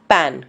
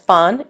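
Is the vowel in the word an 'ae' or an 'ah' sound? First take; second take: ae; ah. First: The vowel is a front 'ae' sound. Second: The vowel is a long open 'ah' sound. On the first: The speaker calls it right. "It is पैन" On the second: The speaker calls it wrong. "Please do not pronounce this as पान"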